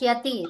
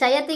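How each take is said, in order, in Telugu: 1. ఇది ఒకే సంయుక్తాక్షరంతో మొదలవుతుంది, sya. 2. ఇది రెండు అక్షరాలతో మొదలవుతుంది, sha-ya. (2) "శయతి కాదు"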